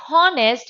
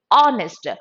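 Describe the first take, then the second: First: "honest" with an audible H at the front; wrongly sounded H. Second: "honest" starting straight on the O; silent H. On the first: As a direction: put a spoken H on "honest". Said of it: "Not honest". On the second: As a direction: drop the H from "honest". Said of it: "It is honest". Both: Shown as a demonstration.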